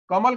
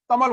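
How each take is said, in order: First: Said in the usual way. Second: "तमल" for कमल, त replacing the first क; child's sound substitution. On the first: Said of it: "तमल बोल रहा हो". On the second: Shown as a demonstration. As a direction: start "तमल" with त instead of क. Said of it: "क वाले letter को रिप्लेस कर दे रहा है". ("तमल" में क की जगह त बोलें)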